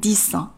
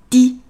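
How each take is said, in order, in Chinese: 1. 词尾的s音要读出来。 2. 词尾的s音不发音。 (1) "在这里的10 不念dix" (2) "它要读dix tickets"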